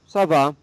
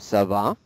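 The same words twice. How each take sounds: First: The pitch falls at the end. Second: The pitch rises at the end. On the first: It answers that one is doing fine. "And the answer" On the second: It asks how someone is doing. "Your voice goes up because it's a question"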